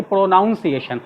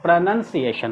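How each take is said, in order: First: "प्रोनाउंसिएशन" with "noun" in the second syllable; wrong pronunciation. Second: "प्रोनंसिएशन" with "nun" in the second syllable; correct pronunciation. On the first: Teacher showing how not to read it, "प्रोनाउंसिएशन" with "noun". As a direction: say "प्रोनाउंसिएशन" as pro-noun-see-ation. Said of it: "ऐसा नहीं कि". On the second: Teacher reading out the Hindi spelling, "प्रोनंसिएशन" with "nun". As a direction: say "प्रोनंसिएशन" as pruh-nun-see-ation. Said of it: "इसको बिल्कुल अलग तरह से पढ़ेंगे". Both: Shown as a demonstration.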